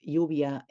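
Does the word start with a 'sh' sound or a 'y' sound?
y. The first sound is a 'y' sound. "which is lluvia in Spanish"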